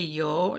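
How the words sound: It is said the common Spanish way. "They don't say yo like most people"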